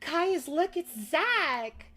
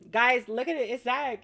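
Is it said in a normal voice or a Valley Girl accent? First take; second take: Valley Girl; normal voice. First: It is said in a Valley Girl accent. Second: It is said in her normal voice.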